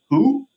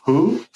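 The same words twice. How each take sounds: First: High, blank one-word "Who?" pitched up sharply; mock blank reply. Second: Deadpan "Who?" as a retold quote; mock blank reply. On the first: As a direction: play dumb with a high "Who?". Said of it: "And he, and he goes". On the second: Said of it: "Straight up goes".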